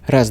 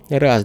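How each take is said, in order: First: Both the bass and the treble are lifted. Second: The treble is slightly lifted, bass left flat. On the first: "повышения высоких частот на первом уровне и переключатель низких частот в режиме повышения" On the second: "поднял первый уровень высоких частот"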